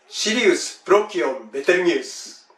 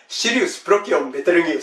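First: It is said at a normal speed. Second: It is said faster.

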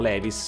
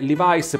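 First: The name is said with an Italian pronunciation. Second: The name is said with an American pronunciation. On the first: The speaker calls it wrong. "in Italia più o meno tutte le persone dicono Levi's" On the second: The speaker calls it right. "La pronuncia corretta è Levi's, perché Levi's è la pronuncia americana"

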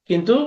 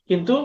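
No difference in how they are said.

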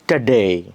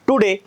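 First: The first vowel is a weak 'uh' sound. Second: The first vowel is a full 'oo' sound. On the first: The speaker calls it right. "इंग्रजांना विचारलं ... ते कसं म्हणतात बघा" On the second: The speaker calls it wrong. "टुडे म्हणणार तुम्ही"

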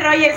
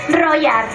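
First: The middle consonant sounds like English 'j'. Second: The middle consonant sounds like English 'y'. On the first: The speaker calls it wrong. "no se dice Roger" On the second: The speaker calls it right. "se dice Royar"

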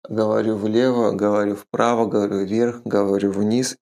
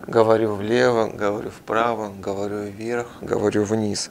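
First: The loudness stays even in every direction. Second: The loudness changes as the head turns. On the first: "И вы практически слышите всегда одинаково" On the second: "Как происходит здесь?"

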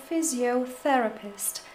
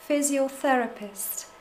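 Both takes have the same delivery.

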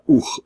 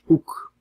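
First: The word ends in an aspirated, breathy ch sound. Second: The word ends in a plain, unaspirated k sound. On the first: The speaker calls it right. "maar oeg voor de aspiratie van hoos" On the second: The speaker calls it wrong. "niet, dat is oek"

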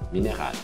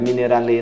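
First: The word ends on a long L sound. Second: The word ends with an extra vowel after L. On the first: The speaker calls it right. "é um L mais longo" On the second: The speaker calls it wrong. "não é mineralê não"

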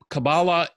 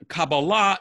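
First: It is said with Ashkenazi Hebrew pronunciation. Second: It is said with Sephardic Hebrew pronunciation.

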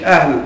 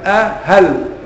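First: It is said as one syllable, ahl. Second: It is said as two syllables, a-hal. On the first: It is read as a plain noun. The speaker calls it wrong. "هي مش اهل" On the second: A question hamza is attached to the particle hal. The speaker calls it right. "همزة استفهام ودخلت على"

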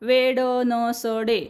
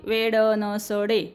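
Both takes have the same delivery.

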